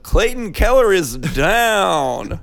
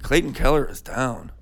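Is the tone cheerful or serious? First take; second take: cheerful; serious. First: It is said in a cheerful, jovial tone. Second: It is said in a serious, somber tone.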